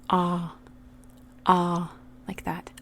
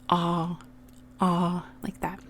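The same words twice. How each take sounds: Both takes have the same delivery.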